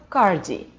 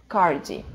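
Both takes have the same delivery.

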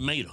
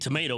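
First: The first syllable is dropped from the word. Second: The word is said with all three syllables. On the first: "We say mato" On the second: "we don't say tomato. I mean tomato"

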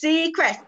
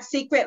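First: The word ends with a 'crest' sound. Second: The word ends with a plain 'cret' sound. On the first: The speaker calls it right. "It's C and then Crest" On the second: The speaker calls it wrong. "A lot of people think it's secret, but it's not secret"

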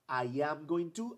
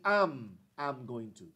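First: I am is said as two full words. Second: I am is contracted into one syllable. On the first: "Aquí yo digo, I am going to" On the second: "the contracted form"

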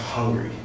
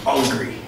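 First: The word starts with an h sound. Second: The word starts without an h sound. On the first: This is the standard English way. The speaker calls it wrong. "Not hungry" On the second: This is how Jamaicans say it. The speaker calls it right. "We don't use that H because it's annoying"

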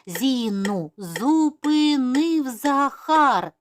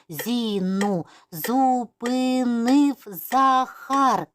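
First: It is spoken at a moderate, quicker pace. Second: It is spoken slowly, syllable by syllable. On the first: "А зараз вже швидше" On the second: "повільно по складах"

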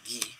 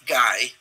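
First: The name is pronounced the French way. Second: The name is pronounced the English way. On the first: "but Belgians pronounce it Guy, French" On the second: "like Guy"

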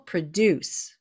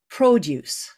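First: The stress is on the second syllable. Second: The stress is on the first syllable. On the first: It is a verb: to make something. "if it's a verb, it's produce. So the emphasis on the second syllable" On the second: It is a noun: fruit and vegetables. "But when it's a noun, it's produce"

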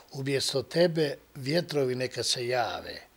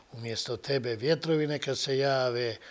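No difference in how they are said.

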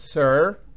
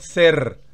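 First: It has a smooth English R. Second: It has a Spanish-style rolled R. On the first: The speaker calls it right. "sino sir" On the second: The speaker calls it wrong. "no es ser"

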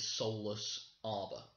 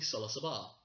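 First: The name is said as two separate words. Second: The name is run together like one word. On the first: "I know it is Solus Arbor" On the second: "almost like it's one word"

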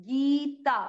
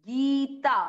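No difference in how they are said.

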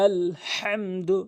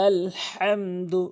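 The two takes are said the same way.

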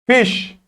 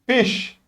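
First: The word ends in a single sh sound. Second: The same.

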